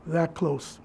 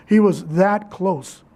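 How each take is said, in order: First: "that close" dropped low and soft; much softer, lower, sorrowful repetition; hushed echo. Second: "that" drawn out slowly and firmly; slow, weighted emphasis on "that"; stress on THAT. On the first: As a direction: let it sink to a quiet, low repeat. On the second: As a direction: lean slowly on the word "that". Stressing how near retirement was. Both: Real, not acted.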